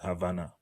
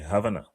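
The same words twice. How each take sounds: First: The word is drawn out and longer. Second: The word is said quickly and clipped. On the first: "it kind of a little longer" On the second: "He says so fast"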